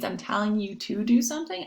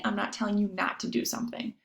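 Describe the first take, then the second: First: "to" picked out as the contrasting word; stress on TO. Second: Second "not" picked out in contrast; stress on NOT. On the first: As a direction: lean on "to" for the positive command. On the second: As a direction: lean on the "not" before "to do". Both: Shown as a demonstration. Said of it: "when we say affirmative".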